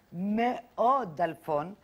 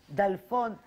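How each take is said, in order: First: Slow, with מאוד stretched and hit hard, rising at the end; stress on very. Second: Said in the usual way. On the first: Acted. Reporter describing the broke filmmaker, slow stress on מאוד. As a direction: lean slowly on מאוד.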